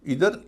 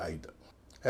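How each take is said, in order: First: इधर slowly as "EE-ther"; first accepted pronunciation. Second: आइदर slowly as "EYE-ther"; second accepted pronunciation. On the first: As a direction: draw out the "ee" of इधर. (इधर, धीरे से "ई" के साथ) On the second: (आइदर, धीरे से "आइ" के साथ) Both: Shown as a demonstration. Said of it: "इसके भी दो उच्चारण हैं".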